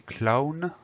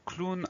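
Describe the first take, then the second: First: "clown" said as "klah-oon"; pronounced as spelled. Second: "clown" said as "kloon"; an "oo" vowel in "clown"; spoken French pronunciation. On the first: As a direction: read "clown" by its spelling, with an "ow" vowel. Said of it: "alors que ça s'écrit clown". (« clown » prononcé comme il s'écrit, « cla-oune ») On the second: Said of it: "on prononce clown". (« clown » prononcé « cloune », avec le son ou) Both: Shown as a demonstration.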